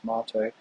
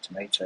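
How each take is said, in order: First: It is said with a British pronunciation. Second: It is said with an American pronunciation. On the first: "So I say tomato" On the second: "they say tomato"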